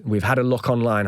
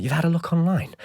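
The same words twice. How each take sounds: First: Said in the usual way. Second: High-pitched disbelieving question; retold scornful astonishment at YOU'VE HAD A LOOK ONLINE; incredulous echo. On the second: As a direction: throw it back in disbelief, pitched up. Incredulous echo of manager's words.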